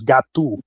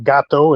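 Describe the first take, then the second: First: "gato" ending in a Portuguese oo; Portuguese pronunciation. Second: "gato" ending in a Spanish oh; Spanish pronunciation. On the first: Comparing Portuguese with Spanish, Portuguese "gato". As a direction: say "gato" the Portuguese way, GAH-too. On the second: Comparing Spanish with Portuguese, Spanish "gato". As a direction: say "gato" the Spanish way, GAH-toh. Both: Shown as a demonstration. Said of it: "like Portuguese and Spanish".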